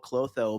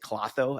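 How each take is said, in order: First: The first O vowel is long. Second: The first O vowel is short. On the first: This is how Midwest speakers say it. "I give it the Midwest long O" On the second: This is how East Coast speakers say it. "if you're from an East Coast, people pronounce it Clotho out there"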